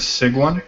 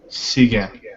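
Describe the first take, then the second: First: The name ends with a plain N sound. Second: The name ends with a nasal vowel sound. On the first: This is how the family says it. "My family says" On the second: This is how it is said in Paris. "In Paris, they would say Seguin. ... It's the the nasal the nasal N"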